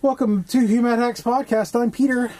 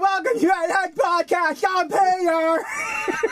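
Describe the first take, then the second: First: It is said flatly, with little energy. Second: It is said lively, with much energy.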